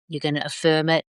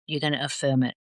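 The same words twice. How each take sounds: First: Said in the usual way. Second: Softer echo of "You're gonna affirm it." fading down. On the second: Shown as a demonstration. Coach repeating the affirmation instruction, softer fading echo. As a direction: drop the voice, let "affirm it" fade quietly. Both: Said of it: "So every day you're gonna affirm it".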